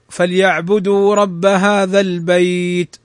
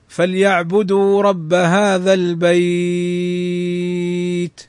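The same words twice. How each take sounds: First: The vowel in the last word is held briefly. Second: The vowel in the last word is held longest. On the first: "يمد مدا طبيعيا حركتين" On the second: "ويجوز مده ست حركات"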